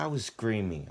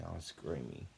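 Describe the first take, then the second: First: Said in the usual way. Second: "I was screaming" dropped much softer, trailing off; faded echo. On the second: Real, not acted. Narrator repeating himself to the camera, much softer echo. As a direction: let the repeat fall away to almost nothing.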